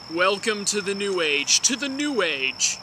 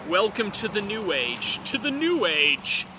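Both takes have the same delivery.

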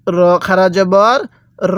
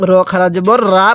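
First: র spelled out slowly with a rounded "ro" vowel; correct heavy RO. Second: র wrongly opened into রা, an "aa" vowel; mistaken RA reading. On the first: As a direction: say র as a full, rounded "ro", never "ra". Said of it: "এই জায়গাটাতে ভুল করি". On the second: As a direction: end on an open "raa" রা instead of rounded "ro". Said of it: "যদি র খারা জবর রা পড়ি". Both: Shown as a demonstration.

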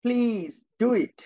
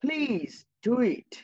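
First: Please do it drawn out slowly word by word; teacher slowly modelling a polite request for the class. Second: Please do it stretched slowly and lifted; teacher slowly repeating the polite example sentence. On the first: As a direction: stretch Please do it out like a gentle request. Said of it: "আমি আবার কি বললাম". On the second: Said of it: "এটা আরেকটা বাক্য". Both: Shown as a demonstration.

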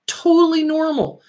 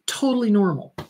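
First: "Totally normal" said higher and louder, insisting; firm, raised "Totally normal" to the audience; emphatic reassurance. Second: Said in the usual way. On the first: Real, not acted. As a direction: push "Totally" up to hammer the point home.

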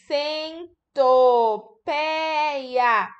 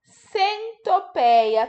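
First: Centopeia pulled apart, each syllable held long; very slow syllable-by-syllable. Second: Centopeia said as one word, slowly and a bit higher; slow but whole word. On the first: Teacher sounding out a word for children, very slowly. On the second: Teacher repeating the word for children, slowly and whole. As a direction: say the word through at a calm, slow pace. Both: Shown as a demonstration. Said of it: "Tá faltando um pedacinho".

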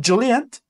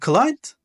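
First: Client said the Turkish way, as cilient; Turkish pronunciation. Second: Client said the English way, as klaynt; English pronunciation. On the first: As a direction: sound Client as ci-li-yent, the Turkish way. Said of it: "Bak Türkçesi client". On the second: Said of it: "İngilizcesi client". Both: Shown as a demonstration.

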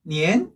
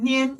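First: "니엔" starting low and rising; second tone. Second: "니엔" on a level, raised pitch; first tone. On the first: Teacher giving the correct second tone, "니엔" rising. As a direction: lift the pitch through "니엔". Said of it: "이 성 구어 하니까". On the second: Teacher giving the hypothetical first tone, "니엔" level. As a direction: keep "니엔" from rising or falling. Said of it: "일 성이면". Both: Shown as a demonstration.

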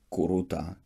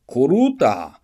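First: Said in the usual way. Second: Loud, higher-pitched summons; sharp raised call. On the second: A narrator's reading. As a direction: call someone over across a square. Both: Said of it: "Wielki książę woła Kurutę".

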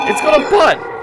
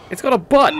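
First: High shrieking shout, stress on got. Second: High disbelieving exclamation; shocked at what he sees; surprised. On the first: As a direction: shriek it in disbelief. Repeated as a shout. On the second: First sighting, repeated louder. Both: Real, not acted.

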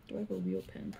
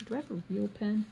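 First: "Do I have a real pen?" said very low and soft; low mumbled repeat. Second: Said in the usual way. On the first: Real, not acted. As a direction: mutter "Do I have a real pen?" deep under your breath.

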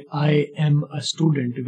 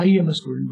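First: I am a student, slow with each word apart; teacher shows how learners usually say it; separated words. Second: I am a student run together as 'ie-mə student'; teacher shows the connected form for learners; linked up. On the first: Slow, separated learner's version. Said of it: "आप आमतौर पर कहते हैं". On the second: Quick, joined native version. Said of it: "I और M को मिला के". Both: Shown as a demonstration.

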